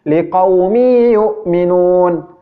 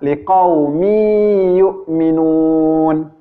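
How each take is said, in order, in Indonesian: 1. Dengung dibaca tergesa-gesa dan dipotong pendek. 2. Dengung ditahan panjang, tidak tergesa-gesa. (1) "cara membaca idgham bi gunnah yang salah ... dia tergesa-gesa" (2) "tetapi yang benar adalah"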